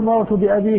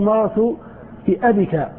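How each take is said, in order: First: The vowel after b is long. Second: The vowel after b is short. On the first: "ولا تقول" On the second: "تقول"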